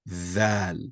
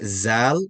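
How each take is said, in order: First: The first consonant is heavy and pressed. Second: The first consonant sounds like a plain z. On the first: The speaker calls it right. "Place pressure, so it's gonna zal zal" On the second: The speaker calls it wrong. "and not zal, not za, like a z sound"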